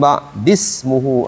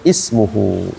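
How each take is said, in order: First: The word runs on without its opening vowel. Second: The word begins with a clear i vowel. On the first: The word is read joined to the word before. "Tapi kalau baca ya'ti min ba'dismuhu Ahmad" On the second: The reading starts at this word. "Tapi kalau kita pisahkan maka dibacanya ismuhu"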